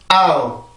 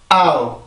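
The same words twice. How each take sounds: The two takes are said the same way.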